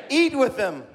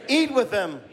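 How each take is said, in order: The two takes are said the same way.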